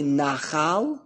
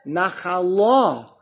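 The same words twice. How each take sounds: First: Nachal with NA accented; stress on first syllable. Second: Nachala slow, landing hard on LA; stress on last syllable. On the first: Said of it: "the emphasis under the nun". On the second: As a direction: stretch the final syllable of nachala, na-kha-LA. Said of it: "the emphasis under the lamed". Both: Shown as a demonstration.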